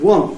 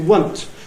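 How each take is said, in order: First: The vowel is the usual one, not rhyming with front. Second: The vowel rhymes with the word front. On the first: "instead of saying want" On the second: "they say want ... rhymes with front"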